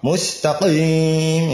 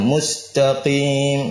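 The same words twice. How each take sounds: First: The q sound is made deep in the throat. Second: The q sound is made at the soft palate. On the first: The speaker calls it wrong. "salah ya, sampai mustaqim" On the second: The speaker calls it right. "Pangkal lisan ketemu langit atas yang lunak ya, kemudian dia tidak keluar angin ya, dan tebal ya"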